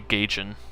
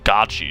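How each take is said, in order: First: The word ends with a final n sound. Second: The word ends without a final n sound. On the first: The speaker says it this way. "I'd say Gaichin" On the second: Other people say it this way. "I hear people say gotchi sugar, but there's an N on there"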